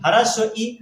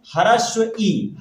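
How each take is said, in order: First: Said in the usual way. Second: ह्रस्व ई drawn out slowly, each sound spelled clearly; teacher saying ह्रस्व ई very slowly; slow demo. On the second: Shown as a demonstration. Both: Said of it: "इसीलिए इसको क्या बोलते हैं".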